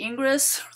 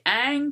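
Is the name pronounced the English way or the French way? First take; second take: English; French. First: The name is read with English spelling sounds. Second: The name is given a French pronunciation. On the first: The speaker calls it wrong. "it looks like Ingres, the way you pronounce it" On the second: The speaker calls it right. "you're going to say Ingres because it's French"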